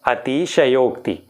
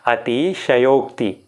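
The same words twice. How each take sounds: Both takes have the same delivery.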